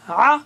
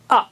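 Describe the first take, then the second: First: آ as a clean hamza a; teacher showing hamza against ain. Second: آ pressed from the throat as ain; teacher showing ain against hamza. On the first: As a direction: say آ plain and open. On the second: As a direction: squeeze آ from the throat. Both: Shown as a demonstration. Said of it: "عین اور حمزہ میں فرق کیجئے".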